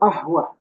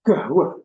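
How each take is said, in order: First: The word begins with a glottal stop. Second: The word begins with a hard g sound. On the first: This is how it is said in Egypt. "Kalau di Mesir ahwah, Kof baca alif" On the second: This is how it is said in Yemen. "di Yaman Kof dibaca G"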